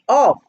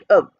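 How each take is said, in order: First: The word is stressed with a full vowel. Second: The word is unstressed with a weak vowel. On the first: The speaker calls it wrong. "I did not say of" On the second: The speaker calls it right. "I said of"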